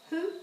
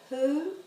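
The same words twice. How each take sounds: First: The vowel is cut short. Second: The vowel is held long.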